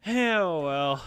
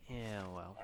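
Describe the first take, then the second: First: Louder, higher mock retort. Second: Quiet grumbled aside; muttered. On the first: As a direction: throw it back loud and high. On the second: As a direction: say it softly to yourself, a little annoyed. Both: Real, not acted. Grumbling at the game.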